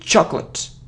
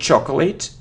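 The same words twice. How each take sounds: First: The c and l join as one cluster. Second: A vowel is sounded between the c and l. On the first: The speaker calls it right. "So it's like cl, cl" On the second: The speaker calls it wrong. "It isn't chocolate. No"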